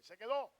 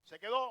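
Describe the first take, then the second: First: "Se quedó" with a rising, firm "quedó"; stress on quedó. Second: "Se quedó" repeated louder, "quedó" punched and rising; loud stress on quedó. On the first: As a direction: ask "Se quedó" with quedó lifted. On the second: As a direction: hit "quedó" hard, louder this time. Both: Shown as a demonstration. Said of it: "O sea que Dios".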